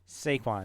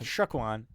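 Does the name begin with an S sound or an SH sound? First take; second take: S; SH. First: The name begins with a plain S sound. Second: The name begins with an SH sound. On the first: The speaker calls it right. "Saquon, not Shaquan" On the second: The speaker calls it wrong. "not Shaquan"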